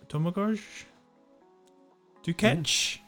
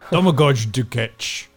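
First: It is said high, with a questioning rise. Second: It is said low, with firm conviction.

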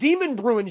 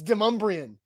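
First: The name has the non-local pronunciation. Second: The name has the local pronunciation. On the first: The speaker calls it wrong. "It's not Demon Bruin Street" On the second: The speaker calls it right. "It's Demumbrian"

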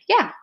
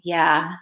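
First: It sounds neutral and ordinary. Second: It sounds gloomy and flat, like Eeyore.

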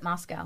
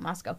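First: The name is said the common, non-local way. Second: The name is said the local town way. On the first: This is not how the town's residents say it. The speaker calls it wrong. "I don't think they pronounce it Moscow" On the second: This is how the town's residents say it. The speaker calls it right. "I think they call it Moscow"

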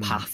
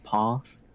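First: It is said with a Northern English accent. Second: It is said with a Southern English accent.

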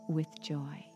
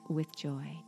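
Both takes have the same delivery.

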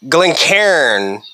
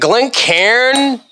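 First: The ending sounds like the word cairn. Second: The ending sounds like the name Karen. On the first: The speaker calls it right. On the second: The speaker calls it wrong.

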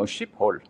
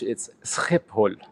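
First: The word begins with an sh sound. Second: The word begins with s and a throaty sound. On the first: "In German, it would be, you know" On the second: "But in Dutch"

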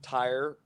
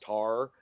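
First: It is said with a full 'ire' diphthong. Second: It is said in a Texas accent, like 'tar'.

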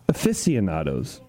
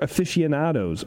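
First: It is said with a continental, Spanish-like pronunciation. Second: It is said with a plain English pronunciation.

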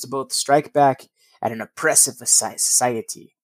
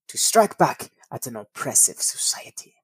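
First: It is said in his normal voice. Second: It is said in a put-on German accent.

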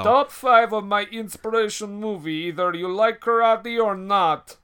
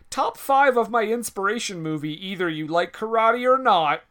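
First: It is read in a put-on Russian accent. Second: It is read in the reader's natural accent.

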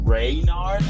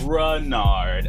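First: The first syllable has a full vowel. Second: The first syllable has a reduced schwa vowel. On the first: The speaker calls it wrong. "I get called Raynard a lot" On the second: The speaker calls it right. "I say the E is a schwa"

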